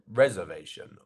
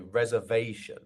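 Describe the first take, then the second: First: The stress is not on the third syllable. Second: The stress is on the third syllable. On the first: The speaker calls it wrong. "not reservation" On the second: The speaker calls it right. "The part that sounds like ve is our stress syllable here"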